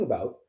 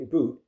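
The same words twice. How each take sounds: First: Said in the usual way. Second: "Aboot" rhymes with boot, not about; Canadian aboot. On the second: Shown as a demonstration. Repeating the word to show it properly, Canadian aboot. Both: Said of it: "you gotta say it properly".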